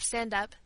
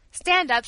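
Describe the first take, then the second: First: Said in the usual way. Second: Firm command. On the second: A narrator's reading. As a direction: stand up, said louder and firmly. Servant urging child to rise.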